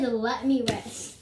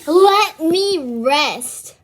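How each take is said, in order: First: Said in the usual way. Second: Loud, slow drawn-out let me rest; quoting the cat. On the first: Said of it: "Daddy, he said". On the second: Retold or imitated. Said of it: "He said".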